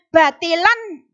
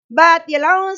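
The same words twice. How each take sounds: First: The final n is pronounced clearly. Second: The final n is hidden and blurred. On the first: The speaker calls it wrong. "Bukan batilan, salah" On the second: The speaker calls it right. "Itu bacaannya ikhfa. Jadi samar"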